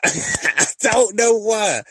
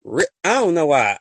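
First: Slow, loud laughing disbelief. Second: Said in the usual way. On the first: Real, not acted. Host laughing to listeners about men leaving the room, loud laughter. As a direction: laugh through it, drawn out.

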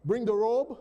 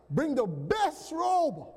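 First: Said in the usual way. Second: "best" leaned on, slow and drawn out; slow down and press "best robe"; stress on best. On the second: Shown as a demonstration. Preacher corrects the father's order, slow emphasis on "best". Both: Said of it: "Not just any robe".

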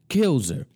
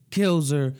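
First: KILLS her, punched high; stressed kills. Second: KILLS her, punched high; stressed kills again. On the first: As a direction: hit the word Kills. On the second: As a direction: repeat Kills with the same punch. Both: Shown as a demonstration.

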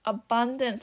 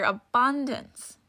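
First: Said in the usual way. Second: Abundance drawn out slow and weighty; stress on abundance. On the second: Shown as a demonstration. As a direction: lean on abundance, stretch it. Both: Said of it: "That's the key word here".

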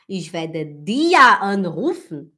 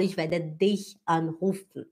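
First: "dir" loud, long and swooping, as the error; slow sentence blaring the wrong word "dir"; stress on DIR. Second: Corrected sentence, lower and even, "dich" set out clearly; stress on DICH. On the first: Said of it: "em vez de eu falar". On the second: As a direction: lean gently on the right word "dich". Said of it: "eu falo". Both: Shown as a demonstration.

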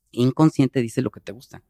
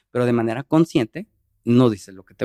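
First: Apoyar fuerte la palabra "inconsciente", en tono bajo que cae; énfasis en inconsciente. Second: Apoyar "consciente" con un tono que sube al final; énfasis en consciente. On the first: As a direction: marcar "inconsciente" como la mitad del contraste. Contrasta inconsciente con consciente. (subrayando "inconsciente" frente a "consciente") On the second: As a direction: marcar "consciente" como la otra mitad del contraste. Contrasta consciente con inconsciente. (subrayando "consciente" frente a "inconsciente") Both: Shown as a demonstration.

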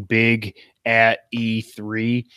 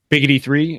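First: "big at E three" said slowly, word by word; separated words. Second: "big at E three" slurred into "biggity three"; run-together mishearing. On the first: Shown as a demonstration. Podcaster retelling his E three remark, "big at E three" spaced out. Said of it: "If I say it too fast". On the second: Retold or imitated. Co-host's mishearing retold, "biggity three" run together. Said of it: "it sounds like biggity".

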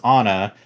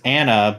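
First: "Anna" with an open "ah", AH-nuh; mispronounced Anna. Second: "Anna" with a flat short A, as in "can"; name as written. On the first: Fan shows the dub's wrong name, "Anna" said AH-nuh. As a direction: say "Anna" as AH-nuh, first vowel as in "father". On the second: Fan explains the name's proper form, "Anna" said AN-uh. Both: Shown as a demonstration. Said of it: "but it's pronounced Anna".

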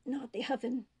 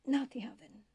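First: Strained, higher voice of a dying prisoner; pleading dying man. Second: Breathless whisper, higher and pleading; whispered plea. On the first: Dying prisoner begs Bashir not to be burned, pleading. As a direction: beg weakly, the voice pitched up. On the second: Dying prisoner begs Bashir once more, whispering. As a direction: barely breathe the words, begging. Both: A narrator's reading.

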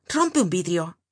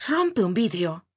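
First: Thundering order. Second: Repeated order. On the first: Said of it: "con voz tonante". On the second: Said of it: "replicó". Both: A narrator's reading.

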